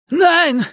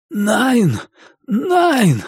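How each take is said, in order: First: Very high-pitched cry of protest; high, frantic German shout; cried out. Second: High-pitched, hoarse protest from a hanged man; raised, hoarse plea in German; hoarse mutter. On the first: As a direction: cry out in alarm, pitch leaping up. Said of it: "крикнул он". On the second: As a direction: croak it out high and strained. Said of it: "хрипло пробормотал он". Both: Acted.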